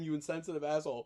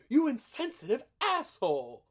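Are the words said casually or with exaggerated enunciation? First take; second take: casually; enunciated. First: The words are said casually, without careful articulation. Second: Each syllable is crisply and deliberately enunciated. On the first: An ordinary person saying the line. "anyone else could have said" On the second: The speaker is so angry he spells out each word. "like he was so angry he had to enunciate"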